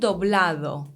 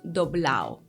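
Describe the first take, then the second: First: The D before the last vowel is clear. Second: The D before the last vowel is dropped. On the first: "Let's say doblado" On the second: "Elision or weakening of D in intervocalic position"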